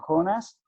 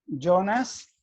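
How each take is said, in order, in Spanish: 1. Se pronuncia a la española. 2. Se pronuncia a la italiana. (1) "ustedes lo pronuncian Jonas" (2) "nosotros lo pronunciamos así"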